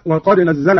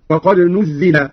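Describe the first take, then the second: First: Said in the usual way. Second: نزل said "nuzzila", in the passive; Qalun's passive "nuzzila" for نزل; passive vowels. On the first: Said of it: "على أن الفعل مبني للمجهول". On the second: Shown as a demonstration. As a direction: put u on the nun and i on the zay in نزل. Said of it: "الفعل مبني للمجهول".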